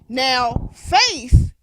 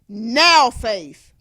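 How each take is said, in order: First: The stress is on faith. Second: The stress is on now.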